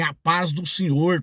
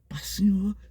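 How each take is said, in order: First: It is said loudly and proudly. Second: It is said very quietly and shyly.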